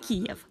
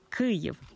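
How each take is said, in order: First: The name is pronounced as Kiev. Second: The name is pronounced as Kyiv. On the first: The speaker calls it wrong. "не «Київ»" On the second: The speaker calls it right. "навчити правильно вимовляти «Київ»"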